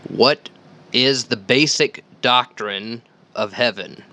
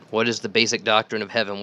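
First: Slow, emphatic question, a little louder; formally posing the big question; announced question. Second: Said in the usual way. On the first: Shown as a demonstration. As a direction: lay out the question slowly, word by word. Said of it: "poses the episode's first question". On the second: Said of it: "quick restatement of the question".

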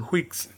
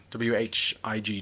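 First: Whigs said with a breathy kh-w onset; Whigs, pronounced carefully; spelled out word. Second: W H I G spelled letter by letter, slowly; slow letter-by-letter spelling; spelling aloud. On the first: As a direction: say Whigs clearly as kwigs. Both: Shown as a demonstration.

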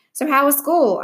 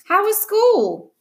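First: Said in the usual way. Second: High-pitched, drawn-out insistent question; insistent demand. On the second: A narrator's reading. Sister to brother ignoring her, insistent. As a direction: press hard for an answer, slowly and high.

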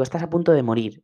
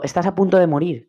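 First: Said in the usual way. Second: "Estás a punto de morir" with "punto" stressed, slightly raised; urgent self-warning. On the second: Shown as a demonstration. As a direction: press hard on "punto" as an urgent wake-up call. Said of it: "Y me digo". (recalca "punto" con fuerza, como un aviso urgente)

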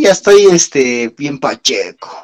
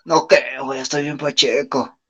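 First: Slow, lazy stoned drawl; stoner voice. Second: Stoner voice. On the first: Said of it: "¿cómo decía ese güey?". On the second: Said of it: "esto es así de". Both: Retold or imitated.

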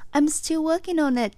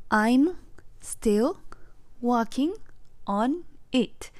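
First: Smooth and connected. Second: "I'm still working on it" broken into single words with a pause after each; stiff, halting learner's English, each word cut off from the next; choppy word by word. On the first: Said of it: "まあ、ちょっと謙遜の意味で". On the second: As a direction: chop the sentence apart, one word at a time. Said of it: "途切れ途切れすぎて分かってもらえないんですよ". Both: Shown as a demonstration.

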